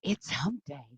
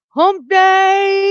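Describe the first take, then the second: First: Softer, lower throwaway echo; quiet hump day. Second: High, slow, loud stretched-out shout; hump day call. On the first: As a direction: toss it off under the breath. Repeats gag after the shout. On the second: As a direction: drag it out like a goofy ad. Hump day morning show gag. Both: Acted.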